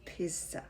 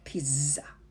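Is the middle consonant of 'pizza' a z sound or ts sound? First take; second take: ts sound; z sound. First: The middle consonant is said as a ts sound. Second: The middle consonant is said as a z sound. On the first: The speaker calls it right. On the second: The speaker calls it wrong.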